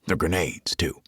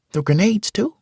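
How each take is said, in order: First: Said in the usual way. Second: Put-on high boy's voice, rising question; excited boy's question. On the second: Malik asking about grenades, high and rising. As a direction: ask it wide-eyed like a kid. Malik asks, Mitch repeats.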